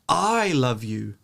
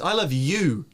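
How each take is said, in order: First: The stress is on the word I. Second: The stress is on the word you. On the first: It is me, not someone else, who loves you. "If you stress the first term" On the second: It is you and nobody else. "and nobody else"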